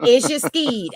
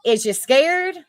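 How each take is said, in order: First: "skeed" with a long ee and no r; Southern slang pronunciation. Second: "scared" drawn out with air vowel and clear r; standard word. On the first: Explaining the name to the panel, Southern "skeed". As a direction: say "skeed" for scared, Southern style. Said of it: "As in, is you scared?". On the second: Explaining what the name means, a slow, clear "scared". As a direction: slowly spell out "scared" by ear. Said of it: "As in". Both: Shown as a demonstration.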